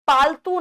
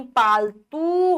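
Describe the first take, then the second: First: पालतू as 'paal-tu'; short u. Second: पालतू as a slow 'paal-tooo'; slow पालतू with a held last vowel; long oo. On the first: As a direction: clip the end of पालतू. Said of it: "पालतू नहीं". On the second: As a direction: stretch the end of पालतू. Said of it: "पालतू होगा". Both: Shown as a demonstration.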